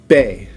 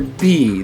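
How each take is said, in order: First: The letter name ends in an 'eh' vowel. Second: The letter name ends in an 'ee' vowel. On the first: "but in Spanish it's be" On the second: "That's how you say it in English"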